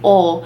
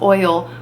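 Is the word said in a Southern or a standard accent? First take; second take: Southern; standard. First: It is said with a Southern Kentucky pronunciation. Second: It is said with a standard pronunciation. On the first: The speaker calls it wrong. "My mom is from Southern Kentucky and she raised me saying oil" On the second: The speaker calls it right. "I know it's pronounced oil"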